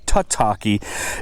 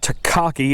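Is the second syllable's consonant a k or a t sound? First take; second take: t; k. First: The second syllable starts with a t sound. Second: The second syllable starts with a k sound. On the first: The speaker calls it right. "it's actually Tataki" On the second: The speaker calls it wrong. "I mispronounced the name of the bait. It's not Takaki"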